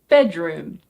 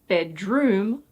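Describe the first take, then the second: First: The stress falls on the first part, bed. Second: The stress falls on the second part, room. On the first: The speaker calls it right. "the first word is stressed" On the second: The speaker calls it wrong. "it's not bedroom"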